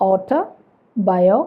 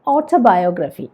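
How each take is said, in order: First: "ഓട്ടോബയോഗ്രഫി" slowly in three chunks, auto, bio, graphy; split into chunks. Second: Said in the usual way. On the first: Shown as a demonstration. Teacher splitting a longer word for learners, "ഓട്ടോബയോഗ്രഫി" as auto... bio... graphy. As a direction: clear gaps inside "ഓട്ടോബയോഗ്രഫി" after auto and bio. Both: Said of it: "chunks ആയിട്ട് split ചെയ്യാം".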